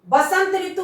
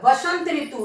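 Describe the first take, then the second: First: The first word begins with a b sound. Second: The first word begins with a v sound. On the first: The speaker calls it wrong. "बसंत ऋतु कौन होता है?" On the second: The speaker calls it right. "वसंत ऋतु होता है"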